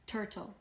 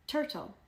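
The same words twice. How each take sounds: First: Said in the usual way. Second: Turtle lifted high then dropping; modelling the word. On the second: Shown as a demonstration. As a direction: pop turtle up for the children.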